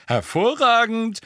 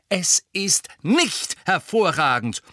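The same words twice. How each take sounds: First: Higher, louder, slowly savoured Hervorragend; gleeful Hervorragend, drawn out with delight; cheerful. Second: Nicht hit hard, slow, higher and louder; stress on nicht. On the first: A narrator's reading. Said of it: "sagte Fred vergnügt". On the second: Acted. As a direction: punch the word nicht, firm falling end. Hermine contradicts Fred.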